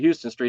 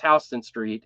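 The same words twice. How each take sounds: First: Houston is said like the Texas city's name. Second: Houston is said the way New Yorkers say it. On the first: The speaker calls it right. "it should be" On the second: The speaker calls it wrong. "It's Houston Street in in New York"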